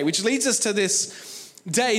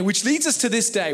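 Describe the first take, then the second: First: "which leads us to this day" drawn out slowly, rising on "us"; slow emphatic repeat. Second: Said in the usual way. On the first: Shown as a demonstration. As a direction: let the repeat land slowly, lift on "us".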